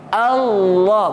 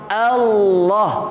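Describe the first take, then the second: No difference in how they are said.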